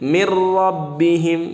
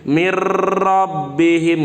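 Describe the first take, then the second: First: The r is trilled only lightly. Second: The r is heavy with a long trill. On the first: The speaker calls it right. "gitu aja" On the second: The speaker calls it wrong. "jangan terlalu tebal begini ... nggak boleh begitu"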